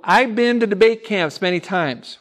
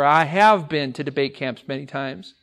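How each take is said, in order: First: The start is contracted and the sentence is said quickly. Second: The start is said in full with every word clear. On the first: The speaker calls it wrong. "We say it quickly, but it's very incorrect" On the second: The speaker calls it right. "or I have been"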